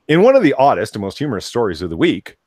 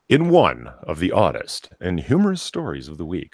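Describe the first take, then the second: First: It is read rapidly. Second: It is read slowly.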